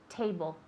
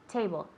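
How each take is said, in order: Both takes have the same delivery.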